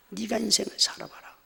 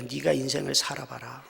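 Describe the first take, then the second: First: Bitter retort, higher. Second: Bitter retort. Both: Retold or imitated. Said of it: "한편의 마음은요".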